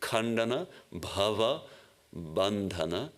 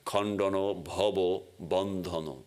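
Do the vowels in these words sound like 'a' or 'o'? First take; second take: a; o. First: The vowels are pronounced as 'a' sounds. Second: The vowels are pronounced as 'o' sounds. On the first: This is the Sanskrit way of saying it. "But in Sanskrit it would be" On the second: This is the Bengali way of saying it. "the A's become O's"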